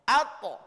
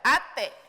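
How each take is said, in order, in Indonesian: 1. Vokal akhir yang dipantulkan condong ke bunyi o. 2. Vokal akhir yang dipantulkan condong ke bunyi e. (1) "bunyinya condongnya ke terkesan huruf o" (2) "Tidak boleh dibaca ate"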